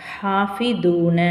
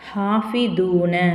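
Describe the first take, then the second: No difference in how they are said.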